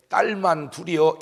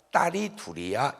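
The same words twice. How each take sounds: First: '딸만'을 높고 크게 힘주어; 섭섭한 듯 '만' 강조. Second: Said in the usual way. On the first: Shown as a demonstration. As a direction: stress '딸만' as if it falls short. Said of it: "그 말은 섭섭하다". ('딸만'에 힘을 실어 섭섭한 티 내기) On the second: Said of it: "이래야 되는데".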